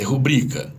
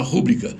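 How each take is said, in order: First: Rubrica stressed on the middle syllable; correct stress. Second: Rúbrica stressed on the first syllable; wrong stress. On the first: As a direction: say rubrica as ru-BRI-ca. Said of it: "É rubrica". (rubrica com acento certo na sílaba BRI) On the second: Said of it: "a palavra proparoxítona é mais chique". (rúbrica com acento errado na primeira sílaba) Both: Shown as a demonstration.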